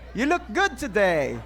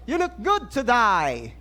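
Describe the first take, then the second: First: It is said in an American accent. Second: It is said in a British accent.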